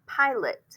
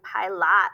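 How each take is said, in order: First: The second vowel is a weak, reduced sound. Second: The second vowel is a full open 'ah'. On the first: The speaker calls it right. "It could sound like eh or kind of like eh" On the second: The speaker calls it wrong. "but not ah. We're not saying pilot"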